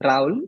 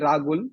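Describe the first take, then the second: First: No consonant is heard between the two vowels. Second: A G sound is heard between the vowels. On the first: This is how the name's owner says it. "It's how I pronounce it" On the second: This is how people in the hometown say it. "with a G in it instead of H"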